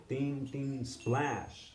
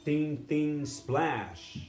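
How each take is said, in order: First: Ding ding, splash, softer; softer cymbal sounds. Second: Ding ding, splash on the third; cymbal sounds. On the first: Teacher repeating the cymbal beat more softly. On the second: Teacher voicing the cymbal beat, splash accented. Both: Shown as a demonstration. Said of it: "That means for emphasis".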